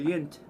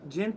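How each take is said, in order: First: The word begins with a Y sound. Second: The word begins with a J sound.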